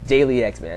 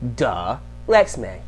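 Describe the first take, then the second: First: The name begins with the word 'daily'. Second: The name begins with a short 'duh' sound. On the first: The speaker calls it wrong. "What the hell is a Daily X Man?" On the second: The speaker calls it right. "That's how you say it"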